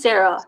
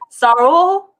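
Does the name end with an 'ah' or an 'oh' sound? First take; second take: ah; oh. First: The name ends with an 'ah' sound. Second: The name ends with an 'oh' sound. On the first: This is the person's real name. "I don't care if the name's Sarah" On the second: The name is mispronounced on purpose. "mispronounce theirs. ... You say Saro"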